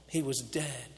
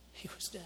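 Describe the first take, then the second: First: Said in the usual way. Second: "He was dead" breathed as a soft whisper; awed whisper. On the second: Acted. Father whispering to the crowd that his son was dead. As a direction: let it fall to a hush.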